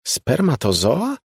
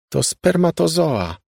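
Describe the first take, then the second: First: High, slow questioning spermatozoa, rising at the end; slow puzzled echo; disbelieving echo. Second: Slow, firm and higher, each syllable of spermatozoa set down; firm know-it-all statement. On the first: Molly echoes in disbelief. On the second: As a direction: state spermatozoa firmly and slowly. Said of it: "oświadczyła stanowczym tonem". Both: A narrator's reading.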